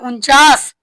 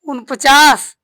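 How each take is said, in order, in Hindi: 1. शब्द छोटे, संक्षिप्त रूप में बोला गया है। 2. शब्द पूरे, लंबे रूप में बोला गया है।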